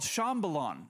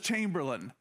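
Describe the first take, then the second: First: The name is said as the locals say it. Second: The name is said as an English word. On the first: This is how the people there call the town. "I'll say it like this" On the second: This is how the visitors read the sign. "it doesn't say Chambalon to us. It says Chamberlain"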